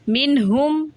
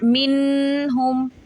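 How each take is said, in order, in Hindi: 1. n को बिना नासिका दबाए सादे ढंग से बोला जाता है। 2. n को नासिका की गुनगुनाहट के साथ रोका जाता है। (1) "मिन हुम ऐसे पढ़ेंगे हम इसको" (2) "नॉट मिन हुम, ऐसे नहीं"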